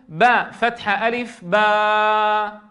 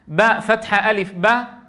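First: The vowel is held for too long. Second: The vowel is held very briefly. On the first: "هذا زيادة عن المطلوب" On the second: "هذا زمن قليل"

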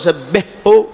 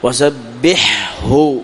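First: The ḥ is merged into the following h. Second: The ḥ is pronounced clearly before the h. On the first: The speaker calls it wrong. "هذا أضغمت، هذا خطأ" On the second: The speaker calls it right. "لكن أظهر وسبحه"

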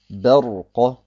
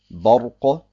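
First: The opening b sounds light and clear. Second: The opening b sounds dark and heavy. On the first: The speaker calls it right. "sondern Barqa ... wird deswegen immer hell ausgesprochen" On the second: The speaker calls it wrong. "Das heißt also nicht Barqa"

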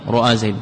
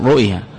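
First: The second consonant carries a long a vowel. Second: The second consonant carries a short i vowel. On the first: "فتح ما قبلها حينئذ قلبت ألفا" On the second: "الأولى الكسر"

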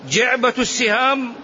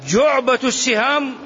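Both takes have the same delivery.

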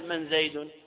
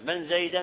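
First: The name ends with a 'u' vowel. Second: The name ends with an 'a' vowel. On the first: It uses the word's normal grammatical form. "ويجوز أن تقول من زيد على أنه بالرفع" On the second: It repeats the word exactly as it was first said. "من زيدا على الحكاية"

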